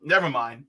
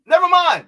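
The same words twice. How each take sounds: First: Said in the usual way. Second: High, loud burst of frustration; exasperated outburst. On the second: Real, not acted. Host giving up on warning the candidate, loudly exasperated. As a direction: throw up the words, loud and high. Gives up, then repeats it exploding.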